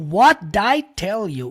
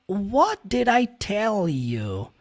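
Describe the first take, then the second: First: The word did shrinks to a linked d sound. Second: Every word is said fully and separately. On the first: It is everyday real-life speech. The speaker calls it right. "Did virou só um D" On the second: It is careful textbook-style speech. The speaker calls it wrong. "desse jeito bonitinho que eu falei"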